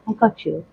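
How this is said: It is said in a soft, gentle voice. Support that comforts and soothes. "gentle, who's like"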